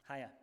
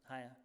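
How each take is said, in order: The two takes are said the same way.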